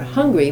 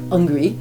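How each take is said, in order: First: The word starts with an H sound. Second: The word starts without an H sound. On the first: "not hungry" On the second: "sometimes skip the H, so then it becomes... but hungry"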